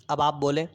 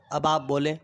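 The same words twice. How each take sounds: The two takes are said the same way.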